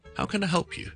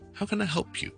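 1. p 连到 you 里，像 pure。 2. p 连到 you 里，像 pure。

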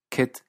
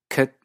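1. Se pronuncia con acento inglés británico estándar. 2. Se pronuncia con acento neozelandés, vocal centralizada. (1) "el inglés británico estándar" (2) "ciertos neozelandeses"

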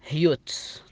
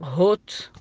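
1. الصوت مثل yoo. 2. الصوت مثل oo. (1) "ولا تنطق هيوت" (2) "ما تنطق هوت"

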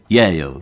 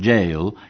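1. La palabra empieza con el sonido 'y', no con 'j'. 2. La palabra suena como la palabra inglesa 'jail'. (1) "No, es Yale" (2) "los argentinos raramente pronuncian bien, porque suelen decir Yale, que quiere decir cárcel"

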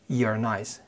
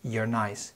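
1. يُختصر You are إلى مقطع واحد سريع. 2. يُختصر You are إلى مقطع واحد سريع.

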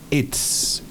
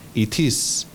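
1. Se dice como una sílaba contraída. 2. Se dice como dos palabras completas. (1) "Esa es la contracción" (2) "si se escribe I-T-I-S, son dos palabras"

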